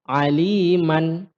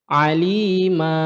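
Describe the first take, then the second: First: The word ends in a short a plus n. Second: The word ends in a long a vowel. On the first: "Yang sebelumnya itu aliman" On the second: "apabila kita baca waqaf, ya, maka dia menjadi alima. Ya, panjangnya dua harokat"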